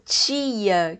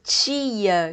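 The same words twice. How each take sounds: First: The t is softened into a ch-like sound. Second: The t is softened into a ch-like sound.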